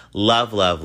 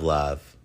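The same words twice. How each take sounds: First: "Love, love," thrown out louder with a lift; emphatic sign-off. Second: Said in the usual way. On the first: Real, not acted. Host blowing love to listeners, punchy and bright. Sign-off repeated loving words.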